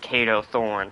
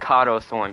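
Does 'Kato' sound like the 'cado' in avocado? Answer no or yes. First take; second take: no; yes. First: Kato is said the usual, common way. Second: Kato sounds like 'cado' in avocado. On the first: This is how most people say the name. "everybody pronounces it as Kato Thorn" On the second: This is the speaker's own personal way of saying it. "I'm saying Kato Thorn because it sounds like little Kato"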